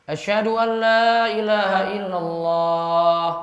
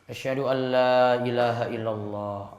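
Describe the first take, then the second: First: It is said loudly. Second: It is said quietly.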